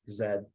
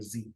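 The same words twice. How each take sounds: First: The letter is said as zed. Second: The letter is said as zee. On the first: "It's always Z" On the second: "they will never pronounce letter Z as letter Z"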